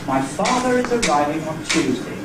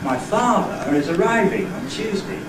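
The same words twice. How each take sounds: First: It is said as one unbroken phrase. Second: It is broken into three separate phrases. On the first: "I had it as one group, one word group" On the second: "There are three word groups"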